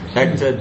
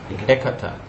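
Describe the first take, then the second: First: The name is said with two syllables. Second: The name is said with three syllables. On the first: The speaker calls it wrong. "Oh no, it's not Ekta" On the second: The speaker calls it right.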